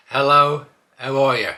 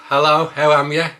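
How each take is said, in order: First: Said in the usual way. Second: Cheery Black Country hello; Black Country accent, loud and friendly; Black Country greeting. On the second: Shown as a demonstration. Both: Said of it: "teach you how to talk with a Black Country accent".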